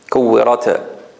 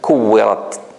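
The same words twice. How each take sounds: First: The final t releases with a strong bounce. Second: The final t releases a tiny breath of air. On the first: The speaker calls it wrong. "This is now a qalqala" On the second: The speaker calls it right. "if I do the hums"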